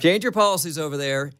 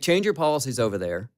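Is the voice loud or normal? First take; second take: loud; normal. First: It is said with a louder, raised voice. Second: It is said at a normal speaking volume.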